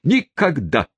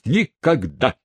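First: High falling stagey refusal; theatrical tone. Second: High, rising stagey refusal; theatrical tone. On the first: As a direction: slam the refusal shut theatrically. (театрально, с падением) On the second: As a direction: declaim it like an actor. (театральным тоном) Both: A narrator's reading. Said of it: "профессиональным, то есть театральным тоном".

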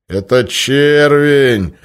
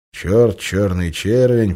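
First: "червень" drawn out, loud and high; loud announcement. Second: Said in the usual way. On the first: Acted. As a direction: stretch "червень" very slowly and loudly. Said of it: "громко объявил он". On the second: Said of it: "narration repeats the name".

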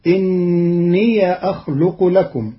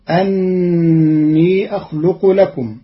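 First: إني chanted with a kasra, inniya; إني with a kasra on the hamza; Qalun reading. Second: أني chanted with an open a, anni; slow melodic tajweed; Quran recitation. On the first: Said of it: "فتصير". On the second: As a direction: chant it slowly. Verse recited before the rule. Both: Shown as a demonstration.

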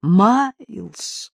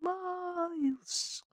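First: Loud, drawn-out cry of a name; louder call. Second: High, soft, drawn-out call; faint distant cry. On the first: Owners searching for lost Miles, louder cry. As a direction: call out louder, voice carrying closer. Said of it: "уже чуть громче". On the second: Lost dog's owners calling from afar, faint cry. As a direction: call faintly, as if through cotton wool. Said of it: "я услышал слабый крик". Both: A narrator's reading.

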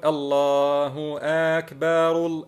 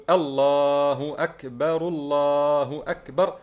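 First: Slow chant with أكبر dragged into "aakbaar"; faulty takbir. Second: Slow chant, long الله with short opening in أكبر; correct Eid takbir. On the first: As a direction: stretch both vowels of أكبر in a chant. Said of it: "بدل أن نقول". (تكبير خاطئ ممدود: الله آكبار) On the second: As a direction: chant it, holding the vowel inside الله. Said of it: "لا، لا، نقول". (تكبير صحيح بمدّ الله وهمزة أكبر قصيرة) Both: Shown as a demonstration.

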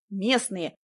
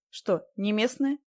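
First: «Местные» snapped back with a falling end; blurted out. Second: Slow, rising question on «местные». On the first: Woman insisting to the stranger, «Местные» blurted and falling. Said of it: "выпалила я". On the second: Stranger asking the woman where she's from, «местные» rising as a question. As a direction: let «местные» lift at the end, unhurried. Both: A narrator's reading.

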